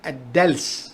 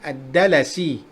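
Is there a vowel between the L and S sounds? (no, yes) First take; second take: no; yes. First: The L is followed directly by the S. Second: A short A vowel comes after the L. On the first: The speaker calls it wrong. "bukannya disukunkan" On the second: The speaker calls it right. "dibaca dengan baris atas"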